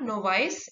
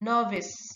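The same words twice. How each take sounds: First: The ending sounds like the word vice. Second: The ending does not sound like vice. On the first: The speaker calls it wrong. "कई लोग इसे नोवाइस कह देते हैं, जो कि गलत है" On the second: The speaker calls it right. "it is novice"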